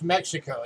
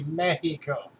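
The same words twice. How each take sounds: First: The x is sounded as ks. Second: The x is sounded as h. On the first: The speaker calls it wrong. "Mexico is not actually pronounced Mexico" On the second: The speaker calls it right. "So the X is supposed to be pronounced as an H"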